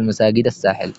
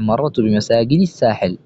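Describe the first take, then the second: First: بمساجد said with fatha, bimasajida; wrong fatha ending. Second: بمساجد said with kasra, bimasajidi; correct kasra ending. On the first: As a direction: end بمساجد on an a vowel, as the wrong form. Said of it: "ولا تقل". (بمساجدَ بفتح الدال خطأً) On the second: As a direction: end بمساجد on a clear i vowel, as the right form. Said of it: "نحو". (بمساجدِ بكسر الدال) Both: Shown as a demonstration.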